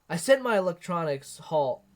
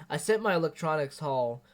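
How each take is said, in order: The two takes are said the same way.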